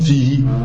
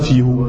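First: The final vowel after h is i. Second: The final vowel after h is u. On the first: The speaker calls it right. "c'est comme fihi" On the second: The speaker calls it wrong. "Tu dis pas fihu"

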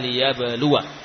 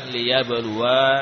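First: The final wa vowel is short. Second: The final wa vowel is drawn out long. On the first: The speaker calls it right. "pendek. Ya. Jadi dibaca liyabluwa" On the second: The speaker calls it wrong. "bukan liyabluwa"

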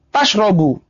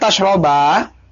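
First: The word ends with a u vowel. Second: The word ends with an a vowel. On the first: The drinking starts a new, separate sentence. "kalau dibaca dhammah" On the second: Eating and drinking together is forbidden. "Sekarang yang di apa di fathah"

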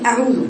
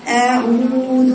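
First: The oo vowel is rushed and cut short. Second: The oo vowel is held for two counts. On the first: The speaker calls it wrong. "تجري عليها كده" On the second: The speaker calls it right. "أطيل الواو المادية ... بحركتين"

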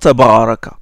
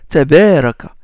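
First: The b sound is thick and heavy. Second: The b sound is thin and light. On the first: The speaker calls it wrong. "on ne dit pas tabaraka" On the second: The speaker calls it right. "c'est un ba aminci"

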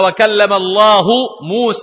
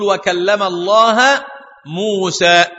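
First: The word Allah ends with a u vowel. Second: The word Allah ends with an a vowel. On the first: God is the one who spoke. The speaker calls it right. "لكن القراءة ثابتة" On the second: Moses is the one who spoke. The speaker calls it wrong. "تقرأها بنصب لفظ الجلالة"

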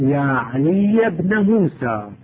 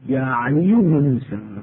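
First: The name ends with an a-vowel (fatha). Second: The name ends with a u-vowel (damma). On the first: "وافتحن، تقول" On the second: "كما أنه يجوز لك أن تقول"

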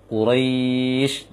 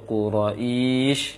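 First: The long vowel runs straight into the final sound. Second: An extra short vowel is added before the final sound. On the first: The speaker calls it right. "Seharusnya setelah ro langsung dilinkan dia, dipanjangkan" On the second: The speaker calls it wrong. "itu keliru"

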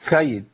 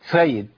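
First: The s sound is lisped. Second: The s sound is lisped.

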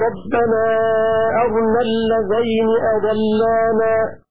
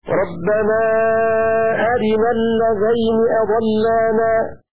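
First: The r carries no vowel. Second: The r carries an i vowel. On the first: "بسكون الراء" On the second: "بكسر الراء"

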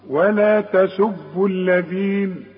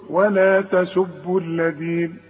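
No difference in how they are said.

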